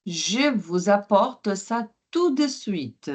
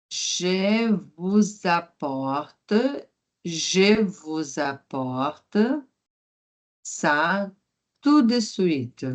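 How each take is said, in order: First: Said in the usual way. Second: Je vous apporte said very slowly in chunks; slow teacher repetition; slow model line. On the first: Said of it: "repeated slowly". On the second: Shown as a demonstration. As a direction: break it into slow pieces for learners.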